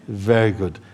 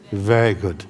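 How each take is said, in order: Both takes have the same delivery.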